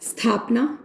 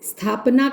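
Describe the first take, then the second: No difference in how they are said.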